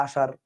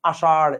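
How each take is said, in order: First: আষাঢ় said with a simple front-tongue r, as আষার; no curled tongue at the end of আষাঢ়, just a light r; ordinary r ending. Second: আষাঢ় with the tongue curled back for the final ঢ়; emphasised আষাঢ় ending in a retroflex flap. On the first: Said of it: "normal বললেই তো হয়". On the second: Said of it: "এভাবে বলার দরকার কি". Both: Shown as a demonstration.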